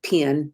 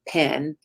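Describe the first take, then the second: First: The vowel sounds like the i in pin. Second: The vowel sounds like the e in ten. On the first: "and pen" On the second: "not pen"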